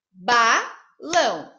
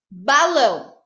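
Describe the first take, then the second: First: "Balão" broken slowly into ba, lão; split into syllables. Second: Said in the usual way. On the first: Shown as a demonstration. Teacher shows pupils that the word has two syllables, "Balão" split slowly into ba, lão. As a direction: say "Balão" syllable by syllable, with a gap after ba. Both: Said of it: "Tem duas sílabas".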